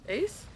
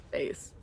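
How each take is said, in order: First: Rising base. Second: Low, falling Base. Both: Shown as a demonstration.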